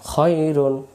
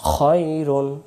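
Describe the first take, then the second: The two takes are said the same way.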